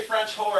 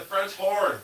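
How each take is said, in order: First: "French whore" with the h of horn dropped, ending in "whore"; the misheard version. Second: "French horn" with a clear n at the end of "horn"; the correct version. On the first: Streamer joking to her chat about a misheard phrase, saying "French whore". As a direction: say "French whore" so it lands on the word "whore". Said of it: "I didn't say French whore". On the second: Streamer correcting her joke to chat, saying "French horn" carefully. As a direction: finish "French horn" firmly on the n. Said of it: "I said French horn". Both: Shown as a demonstration.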